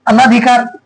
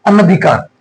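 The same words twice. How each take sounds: First: अनाधिकार with a long aa in "anaa"; wrong long vowel. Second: अनधिकार with a short a after n; correct short vowel. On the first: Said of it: "अन्ना नहीं होता". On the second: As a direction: say अनधिकार as "ana-dhikaar". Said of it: "अनधिकार होगा ना कि अनाधिकार". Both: Shown as a demonstration.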